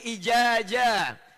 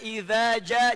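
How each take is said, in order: First: Both consonants are j sounds. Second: The consonants are dh and j.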